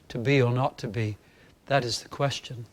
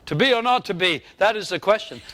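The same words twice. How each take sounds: First: It is full and resonant without shouting. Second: It is loudly shouted with forced power. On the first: The speaker calls it right. "the sound has a resonance, that it doesn't sound like I'm shouting" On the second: The speaker calls it wrong. "I don't want to shout"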